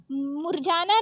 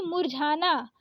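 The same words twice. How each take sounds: First: मुरझाना said as murjana; wrong ज for झ. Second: मुरझाना with breathed jha; correct aspirated झ. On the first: Teacher showing the mistake, मुरझाना with plain j. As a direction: drop the breath from jh in मुरझाना. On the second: Teacher correcting it, मुरझाना with aspirated jh. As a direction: puff the झ in मुरझाना. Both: Shown as a demonstration. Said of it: "मुरझाना नहीं मुरझाना".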